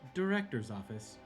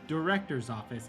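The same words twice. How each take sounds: First: It is said in a smooth, sultry voice. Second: It is said in a somewhat annoyed tone. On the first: An automated elevator is announcing the destination. "a sultry like elevator voice" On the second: The request is repeated with growing impatience. "a little bit more annoyed"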